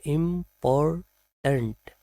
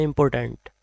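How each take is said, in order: First: इम्पोर्टेंट split im-por-tnt, reduced last vowel; correct, syllable by syllable. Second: इम्पोर्टेंट ending in a full "tent"; common mispronunciation. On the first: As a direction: say इम्पोर्टेंट slowly in three separate parts. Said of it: "इसका right pronunciation है". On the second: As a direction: say इम्पोर्टेंट with a clear e in the last syllable. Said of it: "कभी हम इसको बोल देते हैं". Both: Shown as a demonstration.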